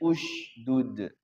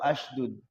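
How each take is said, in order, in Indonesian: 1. Katanya diawali vokal u. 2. Katanya diawali vokal a. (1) "Bacanya ushdud" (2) "atau ashdud"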